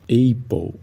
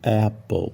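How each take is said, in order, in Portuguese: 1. A primeira vogal soa como o nome da letra 'ay'. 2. A primeira vogal é um 'a' aberto e curto. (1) "muitos falam apple" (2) "em vez de apple"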